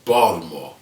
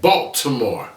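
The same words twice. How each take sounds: First: The city name is said the local way. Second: The city name is said the standard way. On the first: This is how people from the city say it. "I'm from Baltimore" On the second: This is how outsiders say the name. "you pronounce that Baltimore"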